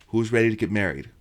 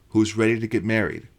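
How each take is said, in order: The two takes are said the same way.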